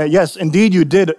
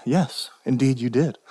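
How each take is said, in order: First: Said in the usual way. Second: Slow, soft, lower reply; very calm. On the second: Acted. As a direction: answer gently and unhurriedly, dropping your voice. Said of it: "we must answer very calmly".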